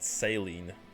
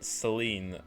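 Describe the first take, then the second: First: The name is pronounced as Saline. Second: The name is pronounced the French way, Celine. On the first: The speaker calls it wrong. "not Saline" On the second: The speaker calls it right. "It's Cel Celine"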